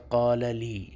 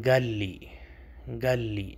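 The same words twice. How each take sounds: First: قال لی with a clear qaf and a long alif; classical Arabic. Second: گال لی with the qaf turned into a g and the alif blurred; colloquial Arabic. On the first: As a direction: say قال لی in clean fusha. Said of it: "اصل لفظ ہوتا ہے". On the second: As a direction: say قال لی the street way, as گال لی. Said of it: "قاف کو وہ گاف بولتے ہیں". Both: Shown as a demonstration.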